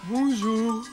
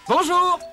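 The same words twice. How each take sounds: First: It is said in a sleepy, low-energy voice. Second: It is said in an ordinary, alert voice. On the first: "il peut arriver que tu sois un peu endormi" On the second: "Tu entres et tu nous salues"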